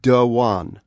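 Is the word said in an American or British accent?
British. The word is said in a British accent. "my British English pronunciation"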